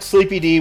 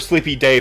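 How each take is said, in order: First: The name is said in an English style. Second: The name is said in a Latin style.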